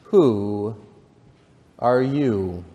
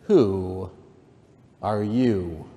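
First: Drawn-out "who", then a pause; slow, sleepy caterpillar voice; languid, sleepy caterpillar. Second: Drawn-out "who", lightly scornful; understated disdainful caterpillar; contemptuous. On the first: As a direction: draw each word out languidly. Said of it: "addressed her in a languid, sleepy voice". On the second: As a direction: stretch "who", then pause, with mild contempt. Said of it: "said the caterpillar contemptuously". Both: A narrator's reading.

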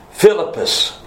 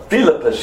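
First: "Philippus" with the accent off its first syllable; misplaced stress. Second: "Philippus" accented on the first syllable, PHIL-ippus; corrected stress. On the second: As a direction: hit the opening PHIL of "Philippus". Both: Shown as a demonstration. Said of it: "put the emphasis on the right syllable".

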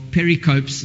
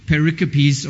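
First: "pericopes" ending like the word "copes"; three-syllable pronunciation. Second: "pericopes" ending in an unstressed "-uh-peez"; four-syllable pronunciation. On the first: Preacher offering the other reading of the word, "pericopes" said PERRY-copes. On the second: Preacher offering one reading of a theologians' word, "pericopes" said puh-RIK-uh-peez. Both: Shown as a demonstration. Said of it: "depending on how you like to read".

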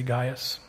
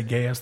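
First: GAIUS said GUY-us; daughters' pronunciation. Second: GAIUS said GAY-us; speaker's pronunciation. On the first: Pastor quoting his daughters' way of saying the name, Gaius as GUY-us. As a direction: say Gaius with a long "eye", GUY-us. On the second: Pastor showing how he pronounces the preacher's name, Gaius as GAY-us. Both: Shown as a demonstration. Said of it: "argue about how to pronounce his name".

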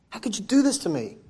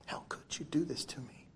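First: Angry son. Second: Breathy, hushed reproach of a wounded son; hurt whisper. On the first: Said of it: "He was angry at his father". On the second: Preacher voicing the angry elder son, whispered. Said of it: "He was angry". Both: Acted.

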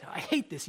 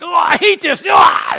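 First: Understated retold grumble at usual volume; mild annoyance. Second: Mock tantrum shout, pitched way up; annoyed outburst. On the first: Pastor retells the king's pen mishap, mildly annoyed. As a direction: replay the annoyance lightly, without shouting. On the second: Pastor imitates the king with a leaking pen, hammed-up annoyed shout. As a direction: explode in a loud, high imitation of exasperation. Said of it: "And he's just annoyed".

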